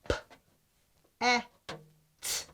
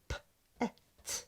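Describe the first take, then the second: First: The sounds are said slowly and apart. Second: The sounds are said faster, closer together.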